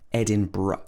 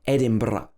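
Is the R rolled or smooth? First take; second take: smooth; rolled. First: The R is smooth without any trill. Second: The R is rolled with a trill. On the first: "a lot of people in the U K would say Edinburgh with a R like that" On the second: "with a trill on the R, like a lot of Scottish people do"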